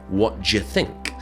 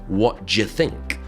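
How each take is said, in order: First: The words are reduced and blended together. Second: The words are reduced and blended together.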